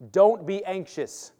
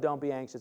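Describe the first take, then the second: First: It is said in a firm, commanding way. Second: It is said in a relaxed, offhand way. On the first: It is an order. The speaker calls it right. "It sounds like I'm telling you" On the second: It is only a suggestion. The speaker calls it wrong. "Does that sound like it's an option?"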